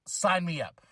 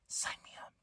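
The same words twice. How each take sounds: First: Said in the usual way. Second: Breathy whispered echo. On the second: Shown as a demonstration. Echoing his own eager sign-up as a whisper. Repeats it as an aside.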